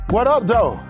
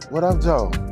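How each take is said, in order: First: It sounds confrontational and threatening. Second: It sounds smooth and flirtatious. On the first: A fight may be about to start. "if you have a problem with somebody and it's about to go left" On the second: The speaker is showing romantic interest. "you may be talking to a female"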